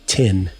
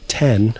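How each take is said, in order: First: The vowel is a closer 'ih' sound. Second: The vowel is an open 'eh' sound. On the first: "I would say tin" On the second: "instead of saying ten"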